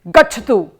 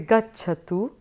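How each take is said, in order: First: It is said in a firm, commanding tone. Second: It is said in a soft, polite tone. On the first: It is an order. "it definitely is not a request" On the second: It is a polite request. "then it becomes a request"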